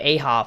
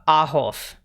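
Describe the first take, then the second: First: The name ends with a P sound. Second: The name ends with an F sound. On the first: The speaker calls it wrong. "Usually it's like a B or a P" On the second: The speaker calls it right. "they do an F instead of a B"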